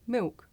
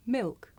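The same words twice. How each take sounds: First: "milk" with a w-like vowel for the L, like "miwk"; L dropped. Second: "Milk" with the L fully sounded before the k; touch the tongue tip for the L in "Milk". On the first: Teacher showing the L sound disappear, "milk" without L. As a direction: say "milk" with no tongue-tip L. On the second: Teacher contrasting two ways to say it, "Milk" with L sounded. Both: Shown as a demonstration. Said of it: "make the L sound disappear".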